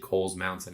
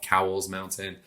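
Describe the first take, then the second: First: The first word rhymes with coals. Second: The first word rhymes with cows. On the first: The speaker calls it right. "It's actually" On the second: The speaker calls it wrong. "a lot of people mispronounce that. They call it"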